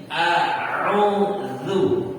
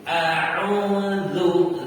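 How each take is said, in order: The two takes are said the same way.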